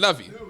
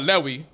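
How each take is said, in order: First: The middle consonant is a V sound. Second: The middle consonant is a W sound. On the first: The speaker calls it wrong. "they started pronouncing the wow as a V" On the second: The speaker calls it right. "it's actually the tribe of Lewi because that wow or that W sound is what it is"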